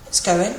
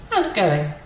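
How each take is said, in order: First: "It's going" as a short reply; answer intonation. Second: "How's it going" asked as a greeting; question intonation. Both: Shown as a demonstration. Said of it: "with a different intonation".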